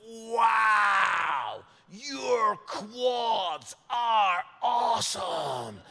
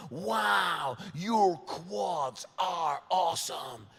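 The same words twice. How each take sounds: First: Drawn-out, loud, higher-pitched American gush; American's gushing amazement. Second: Slowly replayed compliment; retold gush, toned down. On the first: Retold or imitated. American guy admiring comedian's legs in shorts, gushing loudly. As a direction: stretch every word in over-the-top admiration. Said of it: "he just went". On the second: Scot replaying the compliment in his head, slow toned-down echo. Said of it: "what do I say back to that".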